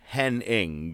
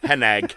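First: The name ends with an 'ing' sound. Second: The name ends with an 'ig' sound. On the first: The speaker calls it wrong. "his last name is not Henning" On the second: The speaker calls it right. "how come he's not doing the ing? He's like, Hennig"

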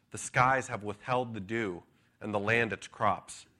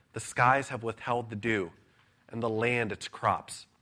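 Both takes have the same delivery.

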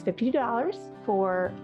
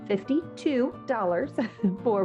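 First: The words are slurred and unclear. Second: The words are carefully and clearly articulated. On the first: The speaker calls it wrong. "let me enunciate that a little better" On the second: The speaker calls it right. "let me enunciate that a little better"

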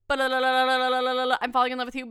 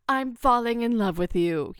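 First: It is mumbled quickly without any force. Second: It is said clearly and forcefully with dramatic cadence. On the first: A declaration tossed off without weight. "He mumbled it. it was like" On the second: A deliberate, heartfelt declaration. "It was not a strong punch delivery. It was not a, and with the cadence"

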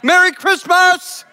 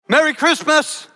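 First: It is said with loud, lively energy. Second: It is said flatly, with little energy.

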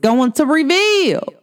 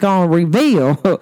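First: It is said in the speaker's ordinary accent. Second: It is said in a broad country accent.

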